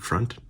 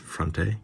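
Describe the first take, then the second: First: The final vowel is silent at the end. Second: The final vowel is sounded at the end. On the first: "Why would they pronounce it like it's uh, French though?" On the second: "I assume it's Fronte"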